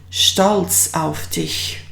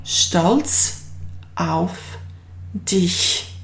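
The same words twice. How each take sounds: First: Stolz auf dich as one slow phrase; joined slowly. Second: Stolz, auf, dich split with pauses; word by word. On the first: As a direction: put the words back together slowly. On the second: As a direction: break it into single words. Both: Shown as a demonstration. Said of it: "in German it translates as".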